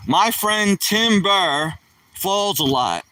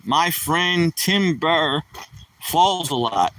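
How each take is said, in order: First: Drawn out, landing on Tim; slow punchline delivery. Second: Slow joke setup. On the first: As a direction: tell the joke slowly, leaning on Tim Burr. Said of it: "So, say the punchline". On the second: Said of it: "Oh, here comes a joke". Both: Shown as a demonstration.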